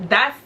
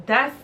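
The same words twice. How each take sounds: The two takes are said the same way.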